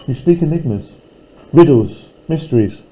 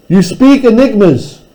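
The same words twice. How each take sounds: First: You speak enigmas dropped much softer; softly, as if sharing secrets; hushed and mysterious. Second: You speak enigmas with speak stressed, at normal volume and a higher pitch. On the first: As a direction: murmur the riddles into a hush. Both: Shown as a demonstration. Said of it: "repeated line read two ways".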